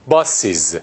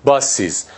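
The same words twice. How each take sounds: First: باسیز with a clear added iz syllable; iz ending. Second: باسیز with the extra ee sound before z; iz ending. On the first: Teacher shows students the iz plural sound. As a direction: say باسیز as bas-iz, two syllables. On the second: Teacher repeats for the class, stressing the iz sound. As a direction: stress the added i in باسیز, bas-iz. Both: Shown as a demonstration.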